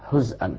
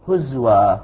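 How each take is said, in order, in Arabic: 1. الزاي تليها همزة. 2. الزاي تليها صوت الواو. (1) "إذن حمزة يسكن" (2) "هزوى بإسكان مع واو"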